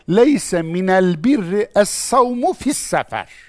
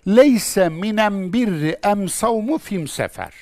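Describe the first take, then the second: First: The definite article is pronounced with an l sound. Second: The definite article is pronounced with an m sound. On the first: This is the northern standard form. "Kur'an Arapçasıyla şöyle söylenir" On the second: This is the southern dialect form. "kendi lehçesince cevap vermiş"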